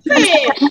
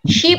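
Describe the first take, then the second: First: The vowel is made with the tongue pulled back. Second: The vowel is made with the tongue forward.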